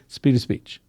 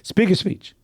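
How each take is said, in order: First: The word 'the' begins with a light D sound. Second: The word 'the' has no consonant, just a vowel.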